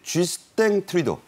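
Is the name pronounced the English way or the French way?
French. The name is pronounced the French way. "불어식 발음입니다"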